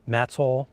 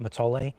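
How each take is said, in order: First: It is said the way locals say it. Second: It is said differently from how locals say it. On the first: The speaker calls it right. "they pronounce it Matole" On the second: The speaker calls it wrong. "not not Matole"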